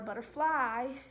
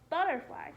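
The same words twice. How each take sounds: First: The stress falls on a later syllable. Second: The stress falls on the first syllable. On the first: The speaker calls it wrong. "It's not a butterfly" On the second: The speaker calls it right. "the emphasis is on the first syllable"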